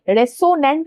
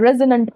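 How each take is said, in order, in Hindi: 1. बीच का व्यंजन एक फुफकार वाली s ध्वनि है। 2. बीच का व्यंजन एक भनभनाती z ध्वनि है। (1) "नहीं पढ़ना है" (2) "पढ़ना है"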